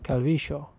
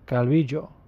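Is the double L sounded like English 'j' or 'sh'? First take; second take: sh; j. First: The double L sounds like 'sh'. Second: The double L sounds like 'j'. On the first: This is the regional way in Argentina. "Argentinians pronounce it with like almost like a sh sound" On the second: This is the regional way in Colombia. "they pronounce it Calvillo with a J"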